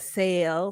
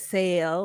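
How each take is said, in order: First: The vowel sounds like the one in 'sale'. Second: The same.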